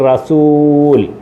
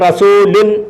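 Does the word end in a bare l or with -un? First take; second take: bare l; -un. First: The word stops on a bare l sound. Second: The word ends with an added -un syllable. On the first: This is the form used when stopping at a full stop. "പറയേണ്ടത് റസൂൽ" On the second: This is the form as it is written. "എഴുതിയേക്കുന്ന റസൂലുൻ"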